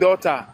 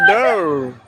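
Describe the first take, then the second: First: It is said with a Nigerian accent. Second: It is said with an American accent.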